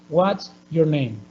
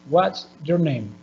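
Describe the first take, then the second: The two takes are said the same way.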